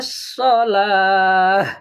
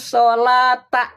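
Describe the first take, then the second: First: The word ends with an h sound. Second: The word ends with a t sound and vowel. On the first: The reading stops at this word. "Kalau di wakaf jadi ha dia" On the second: The reading continues without stopping. "Kalau dibaca jadi ta ya"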